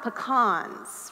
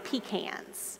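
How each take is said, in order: First: It is said without the South Georgia pronunciation. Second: It is said with a South Georgia pronunciation.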